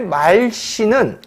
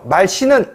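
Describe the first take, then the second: First: The first vowel is held long. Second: The first vowel is kept short. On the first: The speaker calls it right. "이런 식으로 발음하죠" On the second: The speaker calls it wrong. "이렇게 발음하지 않습니다"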